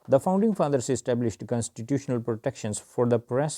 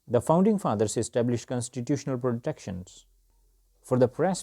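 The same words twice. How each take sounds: First: It is read quickly, at a faster pace. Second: It is read slower, with lively pitch and pauses. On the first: "first I read it for you at a faster speed" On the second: "this time we will see with the high intonation and the right pauses"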